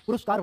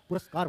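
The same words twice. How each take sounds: First: पुरस्कार as "puruskar", u in the middle; wrong pronunciation. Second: पुरस्कार as "puraskar", a in the middle; correct pronunciation. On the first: Teacher rejects the wrong word for students, mispronounced. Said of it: "पुरस्कार word नहीं होता". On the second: Teacher gives students the right word, correctly pronounced. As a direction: say पुरस्कार with a clean "ras". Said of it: "पुरस्कार word होता है". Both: Shown as a demonstration.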